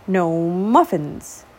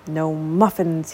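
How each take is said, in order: First: Very slow, drawn-out grumble. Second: Slow low grumble; grumbled. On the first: Acted. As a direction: drag it out, hungry and sulking. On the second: A narrator's reading. Hungry dragon grumbling to himself. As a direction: moan it with an empty stomach. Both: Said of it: "he grumbled".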